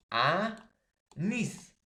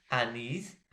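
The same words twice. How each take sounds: First: "anís" as A... NÍS, drawn out; slow, emphatic "anís" with the final syllable punched; stress on last syllable. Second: Said in the usual way. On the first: Shown as a demonstration. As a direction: split "anís" in two, pitch leaping on NÍS. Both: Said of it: "está en la última sílaba".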